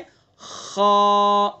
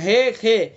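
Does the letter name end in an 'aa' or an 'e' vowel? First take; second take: aa; e. First: It ends in a full, open 'aa' vowel. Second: It ends in a thin 'e' vowel. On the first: The speaker calls it right. "उसको मुंह भर के मोटा करके गहराई के साथ उसको अदा करते हैं" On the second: The speaker calls it wrong. "ये गलत है बिल्कुल"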